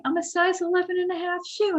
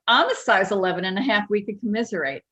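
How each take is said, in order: First: High, quick, whispery lady impersonation; imitated whispery caller, pitched way up. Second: Quick imitated Jersey mom; mock Jersey-accented mother. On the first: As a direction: confide it in a put-on high whispery voice. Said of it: "like, whispery voice". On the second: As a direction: chime back in a put-on New Jersey accent. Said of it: "in her Jersey's accent".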